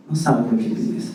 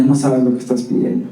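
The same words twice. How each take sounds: First: Wife's soft low warning; hushed, knowing warning from the wife; quiet warning. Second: Wife's warning. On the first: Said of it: "dice mi esposa". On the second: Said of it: "Y ella". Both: Retold or imitated.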